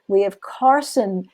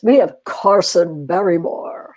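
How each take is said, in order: First: It is said in a plain, normal voice. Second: It is said in a special put-on voice.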